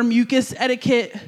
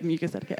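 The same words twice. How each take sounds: First: Said in the usual way. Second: "Mucus etiquette" said much softer, savoring the phrase; quiet savoring repeat. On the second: Shown as a demonstration. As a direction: murmur "Mucus etiquette" to yourself, pleased with it. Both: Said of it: "that's good, right?".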